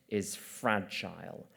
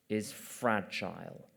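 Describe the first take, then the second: No difference in how they are said.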